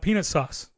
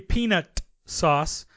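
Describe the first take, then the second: First: The T in peanut is dropped. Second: The T in peanut is pronounced clearly. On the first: The speaker calls it wrong. "it comes out peanut sauce. Something completely different" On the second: The speaker calls it right. "When you gotta hit that T hard in peanut sauce"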